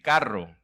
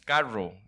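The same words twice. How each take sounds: First: The r is a strong rolled trill. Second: The r is soft and not trilled. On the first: This is the expected standard way. The speaker calls it right. "en lugar de decir carro" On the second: This is the speaker's own regional way. The speaker calls it wrong. "nosotros decimos carro"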